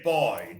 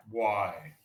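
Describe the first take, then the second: First: Said in the usual way. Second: Put-on low Caribbean "bwoy" for boy, spelt "Why"; Caribbean patois. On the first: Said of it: "if you say boy". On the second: Shown as a demonstration. Teacher showing Caribbean speech, boy turned to patois "Why". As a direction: say "Why" as a Jamaican-style bwai, pitched lower. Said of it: "they'll say something like".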